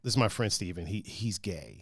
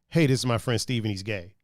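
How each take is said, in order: First: It is said in an awkward, hesitant tone. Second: It is said in a casual, relaxed tone.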